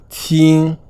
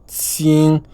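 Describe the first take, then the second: The two takes are said the same way.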